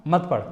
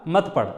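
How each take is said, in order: The two takes are said the same way.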